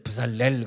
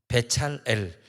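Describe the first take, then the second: First: The name starts with 'bu' and has an 's'. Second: The name starts with 'bae' and has a 'ch'. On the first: The name loses its meaning. The speaker calls it wrong. "부살렐 그러면 아무 뜻도 없어요" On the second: The name keeps its original meaning. The speaker calls it right. "배찰엘이거든"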